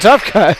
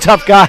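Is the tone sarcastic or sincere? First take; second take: sarcastic; sincere. First: It is said in a mocking, sarcastic tone. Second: It is said in a plain, sincere tone. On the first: The praise is not meant seriously. The speaker calls it wrong. "It sounded like I said it like, oh" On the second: The praise is genuine. The speaker calls it right. "I'm not saying that sarcastically"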